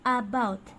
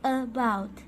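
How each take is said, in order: First: The first vowel is a full open 'a'. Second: The first vowel is a short soft schwa. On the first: The speaker calls it wrong. "Careful that you're not pronouncing like an A as in apple. Okay? It's not about" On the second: The speaker calls it right. "it's very soft"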